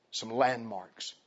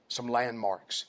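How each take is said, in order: First: "Some landmarks." drawn out slowly, each word weighted; slow it right down on "Some landmarks."; slow emphatic repeat. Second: Said in the usual way. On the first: Shown as a demonstration. Preacher repeating a key phrase slowly for his congregation. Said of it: "repeated for emphasis". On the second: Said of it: "Some landmarks. (repeated slower)".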